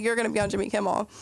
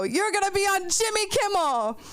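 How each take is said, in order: First: Said in the usual way. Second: Mock excited. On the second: Quoting Mo excitedly.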